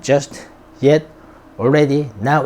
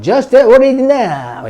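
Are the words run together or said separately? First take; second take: separately; run together. First: Each word is said separately and distinctly. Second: The words are run together quickly as one.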